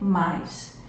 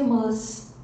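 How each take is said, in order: First: The vowel is oral, gliding into an i sound. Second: The vowel is nasalized, with no i glide. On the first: "a gente utiliza o mais e pronuncia mais" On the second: "Isso não existe na nossa língua portuguesa"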